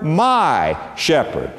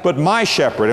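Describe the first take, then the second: First: Slow with "my" held long; stress on my. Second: "my" pressed against the others; stress on my. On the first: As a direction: lean hard on "my" in "my shepherd". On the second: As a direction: say "my shepherd" as the contrast. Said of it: "not a great shepherd, a good shepherd". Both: Shown as a demonstration.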